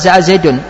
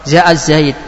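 First: The name ends with an added -un sound. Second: The name ends bare on the d sound. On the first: The phrase is read without pausing at it. "ini bacaan tidak waqaf" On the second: The phrase is read as a stop at the end. "kita baca waqaf"

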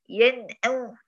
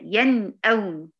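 First: The n is said with the nose blocked. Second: The n keeps its light nasal resonance. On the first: The speaker calls it wrong. "لو بغير غنه هتبقى كده ... سديت الانف يعني سديت الغنه مطلقا" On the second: The speaker calls it right. "لا هي ين اون"

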